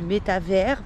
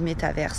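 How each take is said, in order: First: The word is pronounced the French way, no final vowel. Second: The word is pronounced the English way, final vowel sounded. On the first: "en français en fait du métavers puisque théoriquement euh, ben, il n'y a pas de E en français" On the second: "j'ai l'habitude de le prononcer euh, à l'anglaise"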